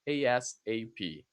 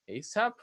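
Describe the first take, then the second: First: Each letter is said separately. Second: It is said as a single word. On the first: "or as an initialism, letter by letter" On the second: "as a word"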